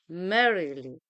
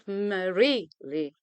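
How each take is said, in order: First: The stress falls on the first syllable. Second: The stress falls on a later syllable. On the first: The speaker calls it right. "We say merrily" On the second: The speaker calls it wrong. "Not merrily"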